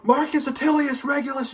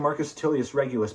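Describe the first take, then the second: First: The name is yelled loudly and angrily. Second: The name is said at a calm, normal volume. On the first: The speaker is angry at the son. "I'm mad at my son and I yell" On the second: The speaker says it for the pleasure of the name. "Or I just say"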